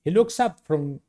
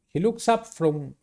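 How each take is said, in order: Both takes have the same delivery.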